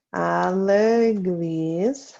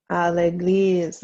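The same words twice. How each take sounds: First: À l'église stretched out very slowly; slow dictation. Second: Said in the usual way. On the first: Shown as a demonstration. Teacher to class writing the answer, very slow dictation. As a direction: draw out each syllable of "À l'église".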